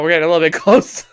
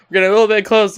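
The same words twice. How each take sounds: First: Laughing. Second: Said in the usual way. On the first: Real, not acted. Camera zooms in awkwardly.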